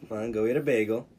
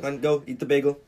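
First: It sounds coy and teasing. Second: It sounds really happy and excited.

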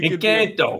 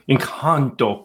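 First: The word is said in a Boston accent. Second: The word is said in an affected foreign-sounding accent. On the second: "I have to say it with an accent"

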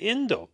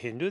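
First: The word begins directly with a vowel. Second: The word begins with an h sound. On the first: "they don't pronounce the letter H"

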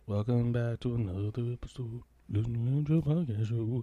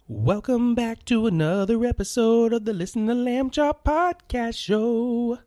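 First: It is said with low, flat energy. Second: It is said with lively energy.

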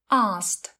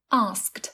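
First: The k sound is dropped between s and t. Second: All three consonants s, k, t are pronounced. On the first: "không có âm k nên dễ hơn" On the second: "đọc từ này một cách khá khó khăn vương víu"

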